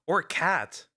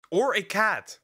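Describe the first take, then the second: First: Said in the usual way. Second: Higher-pitched, emphatic disbelief; incredulous question. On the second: Real, not acted. Streamer appalled it could be a cat, incredulous question.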